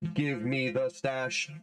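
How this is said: It is said in a robotic put-on voice.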